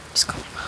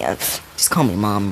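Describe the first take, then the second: First: Soft whispered repeat; whispering. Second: Said in the usual way. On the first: Retold or imitated. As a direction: whisper it like a quiet aside. Repeats the line to the boy.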